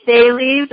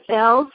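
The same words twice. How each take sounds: First: "Thales" said as THAY-leez; two-syllable pronunciation. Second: "Thales" said as THELZ or THAYLZ; one-syllable pronunciation. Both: Shown as a demonstration. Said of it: "however you decide to pronounce that".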